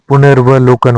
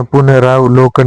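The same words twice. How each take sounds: First: पुनर्वलोकन as punar-va-lokan; short vowels before lo in पुनर्वलोकन; correct form. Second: पुनरावलोकन with long raa; long aa inside पुनरावलोकन; wrong form. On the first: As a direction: join r and v in पुनर्वलोकन. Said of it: "होता है". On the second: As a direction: say puna-raav-lokan for पुनरावलोकन. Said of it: "नहीं होता". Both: Shown as a demonstration.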